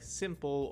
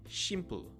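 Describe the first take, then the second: First: The word begins with a plain s sound. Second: The word begins with a sh sound.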